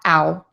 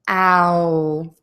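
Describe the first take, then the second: First: The vowel is quick and natural. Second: The vowel is slow and exaggerated. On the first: "how I would say that quickly and naturally" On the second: "I'm kind of exaggerating that"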